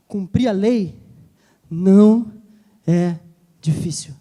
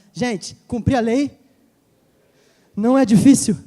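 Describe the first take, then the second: First: Cumprir a lei não é difícil with a pause before each word, não hit loudest. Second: Slow, loud não é difícil said as a wake-up call; poking shout. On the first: Pastor spells out the point to the church, word by word. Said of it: "Jesus tá falando assim, ó". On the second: Pastor pokes a drowsy person, loud and slow. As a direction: shout it slowly to wake the listener. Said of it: "Fala assim, ó". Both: Shown as a demonstration.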